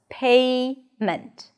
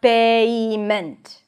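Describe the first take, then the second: First: The first vowel glides smoothly within one syllable. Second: The first vowel is split into two separate syllables. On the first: The speaker calls it right. "The word has two syllables, payment" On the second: The speaker calls it wrong. "it's not two separate syllables. It's not payment"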